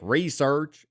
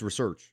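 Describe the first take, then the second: First: It is said the way a backwoods hick would. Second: It is said in the speaker's ordinary way. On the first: Only an uneducated country person would say it this way. The speaker calls it wrong. "if you're like a backwoods hick" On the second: This is how the word is normally said. The speaker calls it right. "It's research"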